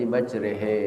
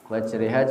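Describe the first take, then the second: First: The final vowel is an 'e' sound. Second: The final vowel is an open 'a' sound. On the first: This is a variant reading of the same text. "tulisannya sama, bacanya beda" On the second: This is the standard reading used today. "tulisannya sama, bacanya beda"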